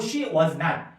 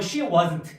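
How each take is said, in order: First: Not is said as a separate word. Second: Not is contracted onto was. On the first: The denial is stronger. "분리해서 쓰시면 wasn't보다 조금 더 세게 부정을 강조" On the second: It is a plain denial.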